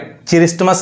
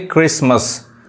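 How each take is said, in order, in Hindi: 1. शब्द 'ch' ध्वनि से शुरू होता है। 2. शब्द 'k' ध्वनि से शुरू होता है। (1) "अब यहाँ पे क्रिसमस नहीं" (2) "क्या पढ़ेंगे क्रिसमस"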